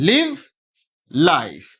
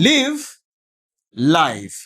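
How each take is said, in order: Both takes have the same delivery.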